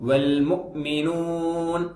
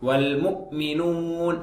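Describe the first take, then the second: The two takes are said the same way.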